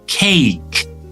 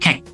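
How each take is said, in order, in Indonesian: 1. Vokalnya panjang, seperti meluncur. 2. Vokalnya pendek dan terpotong. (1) "Jadi ini dibaca cake, bukan cake" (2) "Cake itu short vowels ya"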